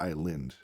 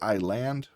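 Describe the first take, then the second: First: The second syllable has a reduced, weak vowel. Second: The second syllable has a full 'a' vowel. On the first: The speaker calls it right. "In this word, it actually says lind" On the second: The speaker calls it wrong. "Just because it has L A N D there doesn't mean it says land"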